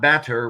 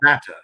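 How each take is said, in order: First: It has a hard American R sound. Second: It is said British-style without the R.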